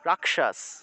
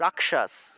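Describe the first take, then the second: First: The k is reduced and joined to the next sound. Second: The same.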